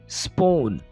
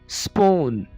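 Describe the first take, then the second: Both takes have the same delivery.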